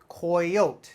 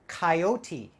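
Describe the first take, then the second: First: The word ends with an 'oat' sound. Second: The word does not end with an 'oat' sound. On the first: The speaker calls it wrong. "C O Y, coy, O T E, oat, right? Not right" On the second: The speaker calls it right. "We pronounce this coyote"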